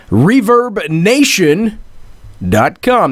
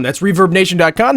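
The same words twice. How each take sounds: First: Reverb nation, slowly and clearly; spelled out slowly. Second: Said in the usual way. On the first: Shown as a demonstration. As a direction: lay out reverb nation dot com word by word.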